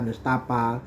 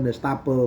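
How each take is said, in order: First: The final vowel is an open 'a' sound. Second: The final vowel is an 'e' sound.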